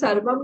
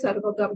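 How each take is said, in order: First: The word ends with a plain m sound. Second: The word ends with a gam sound. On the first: "आप उसको सर्वम भी बोल सकते हैं" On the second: "आप उसको सर्वगम भी बोल सकते हैं"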